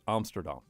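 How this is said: It is pronounced the Dutch way. The speaker calls it right. "but it is actually Amsterdam"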